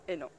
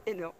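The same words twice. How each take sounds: The two takes are said the same way.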